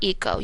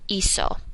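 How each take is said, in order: First: The middle consonant is a hard k sound. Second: The middle consonant is a soft s sound. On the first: The speaker calls it wrong. "You don't want ico" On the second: The speaker calls it right. "You want to soften your C"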